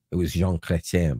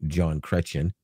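First: Jean said zhahn, nasal French vowel; Jean Chrétien with French Jean, zhahn; French pronunciation. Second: John Chrétien, plain English John; John Chrétien said the American way; Americanized name. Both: Shown as a demonstration. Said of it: "or as you Americans might say".

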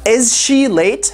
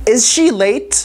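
First: Is she late stretched out slowly; slow it right down; slow repeat. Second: Said in the usual way. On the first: Shown as a demonstration. Teacher repeats the question slowly for students. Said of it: "repeat slow".

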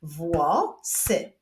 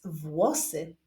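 First: "Włosy" split into two separate syllables. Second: Said in the usual way. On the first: Shown as a demonstration. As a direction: break "Włosy" in two with a clear gap. ("Włosy" z wyraźnym podziałem na sylaby) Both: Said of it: "Wyklaszczmy sylaby w tym wyrazie".

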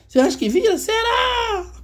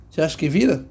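First: Very high squeaky voice on "Cê acha que vira? Será?", near a cry; squeaky mock doubter. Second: Said in the usual way. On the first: Teacher mocking a doubtful viewer in a squeaky voice. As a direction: tease like a tiny doubting voice.

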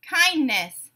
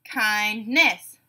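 First: Said in the usual way. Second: "Kindness" split in two, kind-ness; syllable by syllable. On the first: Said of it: "you tell me the whole word". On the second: Shown as a demonstration. Teacher giving a word to blend, said syllable by syllable. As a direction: pause inside "Kindness" between its syllables. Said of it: "say the syllables in a word".

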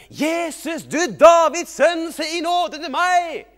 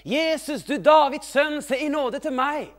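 First: Very high, drawn-out full shout; shouting even louder. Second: High, loud plea across a crowd; calling out. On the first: Blind man refusing to be hushed, very loud slow shout. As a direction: yell it slowly at the top of your voice. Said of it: "han ropte bare enda høyere". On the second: Blind man calling to Jesus for mercy, high loud shout. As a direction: cry out loudly for mercy. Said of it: "Så han begynte å rope". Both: Acted.

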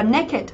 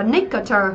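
First: "naked" in two syllables, ending pronounced -id; correct pronunciation. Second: "nicketer" said as the wrong reading of naked; mispronounced naked. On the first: Teacher models the irregular word, "naked" with -id ending. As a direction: say "naked" as NAY-kid. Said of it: "đáp án A đọc là". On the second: Teacher warns against the mistake, "nicketer" for naked. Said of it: "chứ không phải đọc là". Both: Shown as a demonstration.

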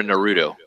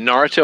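First: Naruto as nuh-ROO-toe; "Naruto" with a weak first syllable, leaning on ROO; stress on middle syllable. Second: Naruto as NAR-uh-toe, front-stressed; "Naruto" squeezed toward NAR-toe; stress on first syllable. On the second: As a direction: say "Naruto" with the weight on NAR, middle swallowed. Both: Shown as a demonstration. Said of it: "Is it Naruto or Naruto?".

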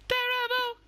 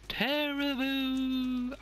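First: A high, loud cry of dread, half in jest. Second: Very slow, stretched-out Terrible; drawn-out dread. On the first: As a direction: wail the word terrible at the screen. Game boss fight dread. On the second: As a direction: drag Terrible out like a groan of doom. Repeating the word, drawn out. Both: Acted.

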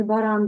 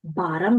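First: "баран" stressed on the last syllable, ба-РАН; Ukrainian final stress. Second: "Баран" stressed on the first syllable, БА-ран; Polish first-syllable stress. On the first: Teacher showing what it is not, "баран" stressed at the end. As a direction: put the weight on РАН in "баран". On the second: Teacher confirming the Polish word, "Баран" stressed at the start. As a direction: lean on БА in "Баран". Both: Shown as a demonstration. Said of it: "що по наголосу не баран".

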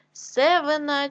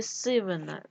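First: Севина with е instead of и; wrong variant Севина, first vowel е; е in first syllable. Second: Said in the usual way. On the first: Shown as a demonstration. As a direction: say Севина with an open e after С. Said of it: "нам потрібно вставити або". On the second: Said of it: "сивий".

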